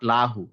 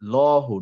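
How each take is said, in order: First: The l sound is light with a clear vowel. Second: The l sound is heavy with a dark vowel. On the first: The speaker calls it wrong. "Not লাহু" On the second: The speaker calls it right. "Heavy letter"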